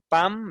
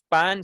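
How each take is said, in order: First: The word ends in a changed nasal sound. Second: The word ends in a plain n sound. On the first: This is a regional form. "sino pam, entonces ya la N se vuelve un poco más una N" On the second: This is the standard form. "Ya no decimos pan"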